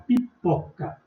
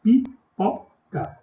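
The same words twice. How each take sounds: First: Said in the usual way. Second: Pipoca split slowly into pi-po-ca; spelled out slowly by syllable. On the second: Shown as a demonstration. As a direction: stretch pipoca out syllable by syllable for the class. (pipoca dita devagar, sílaba por sílaba) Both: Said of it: "a palavrinha é composta por três sílabas".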